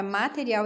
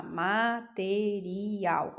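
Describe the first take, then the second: First: Said in the usual way. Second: "material" broken slowly into ma-te-ri-al; syllable by syllable. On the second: Shown as a demonstration. Teacher helping pupils count syllables, "material" slowly syllable by syllable. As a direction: sound out "material" one syllable at a time, slowly. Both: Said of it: "quantas sílabas ela possui".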